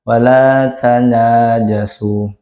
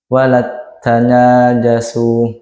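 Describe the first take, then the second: First: The t sound is single and plain. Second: The t sound is doubled and held. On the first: "idhar biasa" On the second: "idgham, itu tasydid pada huruf ta"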